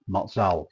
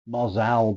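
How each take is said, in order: First: The A is said the Italian way. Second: The A is said the plain English way. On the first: "you're pronouncing the the A slightly funny for the English tongue" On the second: "I've seen it"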